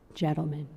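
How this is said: The voice is very soft.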